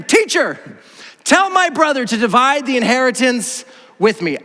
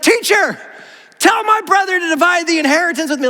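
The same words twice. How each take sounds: First: Emphatic, measured reading of a plea; scripture read aloud. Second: High-pitched, insistent interrupting demand; pushy crowd member. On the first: Preacher reads a crowd member's demand from scripture, emphatic reading. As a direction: read the quoted plea out to the room. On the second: Someone shoving through the crowd demands Jesus's help, pushy and high. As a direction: call out as if barging to the front. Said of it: "someone kinda just shoves their way to the front". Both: Acted.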